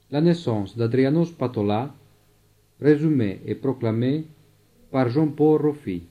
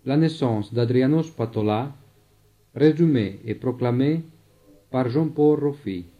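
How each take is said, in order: Both takes have the same delivery.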